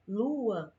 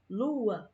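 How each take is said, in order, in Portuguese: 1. Uma pausinha separa as vogais em duas sílabas. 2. Uma pausinha separa as vogais em duas sílabas.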